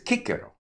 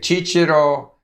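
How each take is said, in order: First: It uses the classical pronunciation of C, like K. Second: It uses the Italian pronunciation of C. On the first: This is the ancient pronunciation. "whereas presumably it's Cicero" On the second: This is how Italians say it. "Italians say Cicero"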